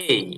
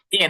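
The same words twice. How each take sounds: First: "এই" sliding from e into i. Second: "এ" short, without an "i" at the end; A as pure "e". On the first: Teacher correcting the letter A, "এই" as "ei". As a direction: say "এই" as a gliding "ei". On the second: Teacher showing what not to say, "এ" as pure "e". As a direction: say "এ" as a plain single vowel, no glide. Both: Shown as a demonstration. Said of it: "এ না কিন্তু এটা".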